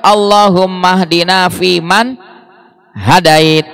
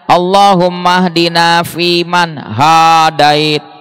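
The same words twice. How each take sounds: First: The vowel after the h is short. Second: The vowel after the h is long. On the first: Guide us among those you have guided. The speaker calls it right. "Kalau yang benar" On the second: The speaker calls it wrong. "kalau haknya panjang"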